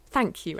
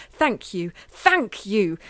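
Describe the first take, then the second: First: Said in the usual way. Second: Growing louder, barely held in; forced thanks building to a shout; rising toward a yell. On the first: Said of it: "she forced herself to think". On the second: A narrator's reading. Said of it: "in case she accidentally yelled the words out loud".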